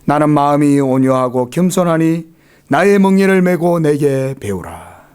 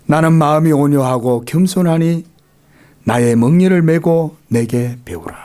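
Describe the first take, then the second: First: It is read in a plain, ungentle voice. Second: It is read in a soft, gentle voice. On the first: "좀 온유한 사람이 부드럽게 낭독을 해야 되는데 좀 죄송스럽네요" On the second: "좀 부드럽습니까? 제 목소리가?"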